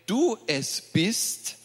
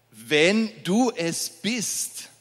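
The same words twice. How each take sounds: First: Said in the usual way. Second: Slow, leaning hard on "du"; stress on du. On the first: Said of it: "er wagt es und sagte". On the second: Shown as a demonstration. Preacher repeats Peter's doubt to the church, slow with "du" stressed. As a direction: draw out "Wenn du es bist" and dwell on "du".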